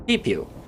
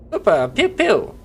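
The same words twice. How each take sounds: First: Quieter, lower pew pew; a softer echo of the shots; soft mock gunshots. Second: Playful pew pew gun sounds, higher; mock gunshots. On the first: Streamer repeats the gun sounds, quieter and lower. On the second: Streamer playing gunslinger, making playful pew pew gunshots. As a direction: fire off pretend shots with your mouth.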